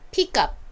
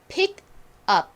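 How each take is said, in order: First: It is said quickly, words linked together. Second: It is said slowly, words kept apart. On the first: "연결해서 빠르게 발음해 볼까요" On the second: "천천히 먼저 발음해 볼게요"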